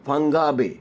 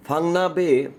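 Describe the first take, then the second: First: "ফাঙ্গা" said with a hard g; name with GA. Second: "ফাংনা" said with n, no hard g; name with NA. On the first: Vlogger unsure of the place name, offers "ফাঙ্গা" with ga. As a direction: say "ফাঙ্গা" with a ga second syllable. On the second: Vlogger unsure of the place name, offers "ফাংনা" with na. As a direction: say "ফাংনা" with a na second syllable. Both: Shown as a demonstration. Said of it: "গা হবে না না হবে".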